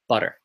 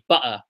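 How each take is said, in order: First: The middle T is a quick flap. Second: The middle T is a glottal stop. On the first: This is how an American speaker says it. "he's talking about American English" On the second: This is how a British speaker might say it. "glottal stop would be like... if you were British"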